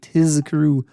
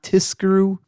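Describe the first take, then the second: First: The consonant before k is a buzzing z. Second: The consonant before k is a hissing s. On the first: The speaker calls it right. "make sure that you pronounce that Z sound" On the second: The speaker calls it wrong. "not Tiskru"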